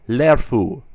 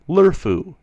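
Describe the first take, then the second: First: The vowel before r sounds like 'e' in error. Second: The vowel before r sounds like 'er' in her. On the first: The speaker calls it right. "I try to pronounce it very closely to the E in error" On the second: The speaker calls it wrong. "sometimes sound like they are spelled lerfu"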